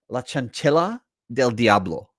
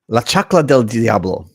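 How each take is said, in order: First: The second word has three syllables. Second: The second word has two syllables. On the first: The speaker calls it wrong. "I can't quite pronounce the title of this one" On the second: The speaker calls it right. "So that's how you say it"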